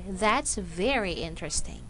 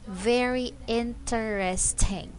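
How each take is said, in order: First: Interesting is said with three syllables. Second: Interesting is said with four syllables. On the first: This is ordinary everyday speech. "in a normal speech or in a fast speech" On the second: The word is being emphasized. "if somebody wanted to emphasize the word"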